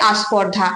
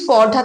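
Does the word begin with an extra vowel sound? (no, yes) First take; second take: yes; no. First: An extra vowel sound comes before the consonant cluster. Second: The word starts directly with the consonant cluster. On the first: "প্রথমেই একটা নতুন স্বরধ্বনির আগমন হয়েছে, সেটা হচ্ছে আ" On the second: "এখানে কিন্তু আ নেই"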